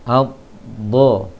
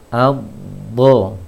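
No difference in how they are said.

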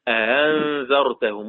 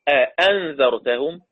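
First: The second hamza is softened toward a long a. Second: The second hamza is a full glottal stop. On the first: "همزة مسهلة" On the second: "زي ما حفص ما بيقرأ"

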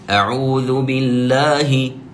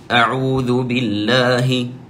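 Both takes have the same delivery.

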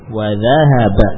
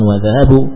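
First: The word ends with an 'a' vowel. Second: The word ends with a 'u' vowel. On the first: The speaker calls it right. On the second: The speaker calls it wrong.

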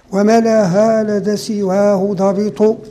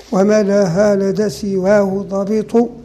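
Both takes have the same delivery.

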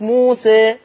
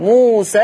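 First: The final vowel is raised slightly toward e. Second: The final long vowel is dropped before the next word. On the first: The word ends the phrase with a stop. "فلما نقف بنثبت الألف موسى" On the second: The word runs on into the next word. "أما وصلا ما حذفت الألف فلا تقليل"

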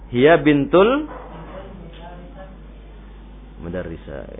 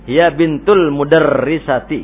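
First: The last word ends in a plain 'a' sound. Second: The last word ends with a full 'ati' ending. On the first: The speaker calls it wrong. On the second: The speaker calls it right.

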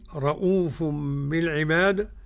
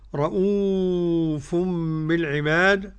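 First: The long vowel is held for two counts. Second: The long vowel is held for four counts. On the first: "حركتين" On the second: "أربعة"

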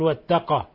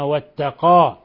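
First: The final long vowel is clipped short. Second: The final long vowel is held fully. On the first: The speaker calls it wrong. "لا تقل واتقى" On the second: The speaker calls it right. "وإنما واتقى، إثبات ذات الحرف"

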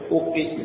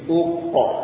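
First: The echo after the q sounds like i. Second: The echo after the q sounds like a. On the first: The speaker calls it wrong. "bukan uqa tapi uqi misalnya" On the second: The speaker calls it right. "Tatkala mengqalqalkan huruf qaf arahnya ke huruf a"

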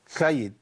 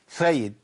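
No difference in how they are said.

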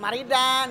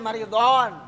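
First: The d sound is plain and light. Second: The d sound is heavy and emphatic. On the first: The speaker calls it wrong. "Bukan maridan" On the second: The speaker calls it right. "pakai do"

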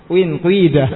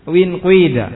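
No difference in how they are said.

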